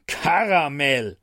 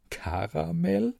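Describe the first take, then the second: First: Slow, stern drawn-out name; scolding. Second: Higher, soft, slow disbelieving question; can't believe that name; incredulous. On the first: Acted. Angel scolding his drunk friend, slow and stern. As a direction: tell him off with one long word. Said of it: "rührte er". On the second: A narrator's reading. Narrator mocking the angel's name, soft and incredulous.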